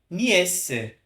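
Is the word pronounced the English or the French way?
French. It is said with a French pronunciation.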